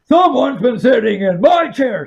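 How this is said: It is said in a great big, deep voice. The largest character is speaking. "said the father bear in his great big voice"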